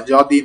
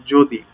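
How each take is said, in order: First: যদি with an open "aw" in the first syllable; যদি mispronounced with its first vowel wide open; wrong open-vowel pronunciation. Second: যদি with a closed, rounded "o"; correct closed-o pronunciation. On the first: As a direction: say যদি as "jaw-dee". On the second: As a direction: say যদি as "jo-dee". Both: Shown as a demonstration. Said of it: "যদি নয়".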